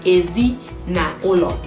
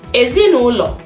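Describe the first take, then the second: First: Said slowly, each word separate. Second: Said quickly, words run together. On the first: The speaker calls it wrong. "you don't need to call it one one like" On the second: The speaker calls it right. "you have to be a bit faster"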